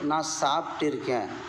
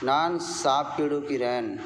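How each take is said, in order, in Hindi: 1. यह वाक्यांश संक्षिप्त रूप में बोला जाता है। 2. यह वाक्यांश अपने पूरे रूप में बोला जाता है।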